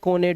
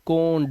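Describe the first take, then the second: First: The final e is sounded as a syllable. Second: The final e is silent, one syllable. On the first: The speaker calls it wrong. "अब ऐसा नहीं पढ़ सकते आप" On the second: The speaker calls it right. "इसे ओ से पढ़ना है"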